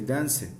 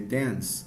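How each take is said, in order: First: An extra vowel sound follows the final consonant. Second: The word ends on the consonant with no vowel. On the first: The speaker calls it wrong. "we don't say dance" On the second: The speaker calls it right. "I say dance"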